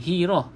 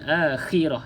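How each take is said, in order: First: The middle consonant is a soft breathy h. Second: The middle consonant is a raspy throat kh. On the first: The speaker calls it wrong. "Hirah tu H I" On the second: The speaker calls it right. "bunyi dia macam kita nak buang kahak"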